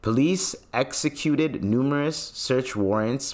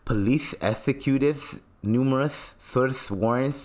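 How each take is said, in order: First: The s sounds are pronounced clearly. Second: The s sounds are pronounced with a lisp.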